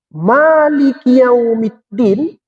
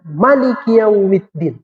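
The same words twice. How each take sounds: First: The first vowel of Maliki is long. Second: The first vowel of Maliki is short. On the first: "Boleh dibaca Malik panjang" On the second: "Boleh juga dibaca Malik pendek"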